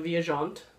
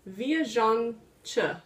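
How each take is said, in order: First: The name is said with a French-sounding ending. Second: The name ends with a Portuguese 'chi' sound. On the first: The speaker calls it wrong. "I kept calling it the Viajante, and that kind of sounds French" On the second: The speaker calls it right. "apparently it's Portuguese, and it's Viajante"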